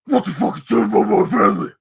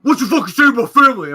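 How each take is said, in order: First: Loud, high slurred confrontation; garbled angry impression. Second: Fast, high, shouted challenge; angry man impression. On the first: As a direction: get in someone's face, words mashed together. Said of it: "more clear than that, but that's the impression". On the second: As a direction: shout it in one rushed burst. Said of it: "but that's the impression".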